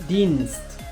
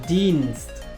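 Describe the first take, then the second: Both takes have the same delivery.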